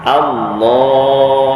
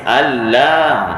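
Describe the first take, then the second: First: The first vowel is light, the l heavy. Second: Both the first vowel and l are light. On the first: The speaker calls it right. "Alif tu nipis, a" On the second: The speaker calls it wrong. "sampai lam pun nipis. dah salah juga"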